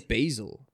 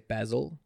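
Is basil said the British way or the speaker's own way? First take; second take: own; British. First: It is said with the speaker's own pronunciation. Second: It is said with the British pronunciation. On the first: "I say basil" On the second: "with the UK is they say basil"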